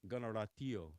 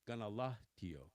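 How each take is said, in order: First: The middle consonant is a rolled R. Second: The middle consonant is an L. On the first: This is the Mohawk way of saying it. "the R being rolled" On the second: This is the Oneida way of saying it. "the Oneidas would say"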